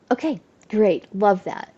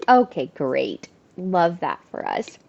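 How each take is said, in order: First: Resigned sarcasm. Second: Dry sarcastic "Okay, great", lower and slow; deadpan sarcasm, unimpressed. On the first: Retold or imitated. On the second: Real, not acted. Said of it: "sarcastic reaction".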